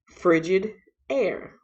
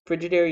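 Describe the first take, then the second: First: It is said slowly as two separate words. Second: It is said at normal speed as one word.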